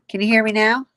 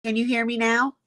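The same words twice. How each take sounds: First: Loud, asking to be heard; shouting on bad phone line. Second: Said in the usual way. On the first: Real, not acted. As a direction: raise the voice over a bad connection. Mic problem, checking if heard.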